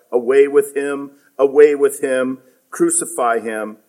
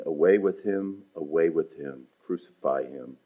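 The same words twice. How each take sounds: First: Mock crowd cry, a bit louder and higher. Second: The crowd's cry read softly, dropping lower; quiet reading. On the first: The chief priests crying out to Pilate, a mild mock cry. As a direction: call it out like the mob. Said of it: "they cried out". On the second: Retold or imitated. Preacher rereading the crowd's demand, soft and low. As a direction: read it low and hushed, almost to yourself. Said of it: "And notice verse fifteen".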